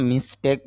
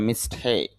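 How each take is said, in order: First: "মিস্টেক" with a short, simple "ek" ending; "মিস্টেক" with no glide in the last vowel; common mispronunciation. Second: "মিস্টেক" with aspirated t and drawn-out "ei" glide; "মিস্টেক" ending in a long gliding "eik"; correct pronunciation. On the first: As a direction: say "মিস্টেক" the everyday Bangla way, ending in a quick "tek". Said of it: "যদিও আমরা মিস্টেক বলে থাকি". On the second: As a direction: say "মিস্টেক" carefully as "mis-THEIK". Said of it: "শুদ্ধ উচ্চারণটা হবে মিস্টেক". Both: Shown as a demonstration.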